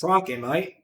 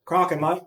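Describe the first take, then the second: First: Light Australian Steve Irwin impression, rising mate; first stab at an Australian accent. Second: Put-on second try at a light Australian accent on Crockett, mate; lightly voiced Australian, mate rising; retrying the Australian Steve Irwin voice. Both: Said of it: "Steve Irwin".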